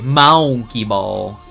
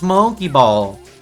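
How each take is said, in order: First: The words are said with a long, exaggerated vowel. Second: The words are said with ordinary vowels.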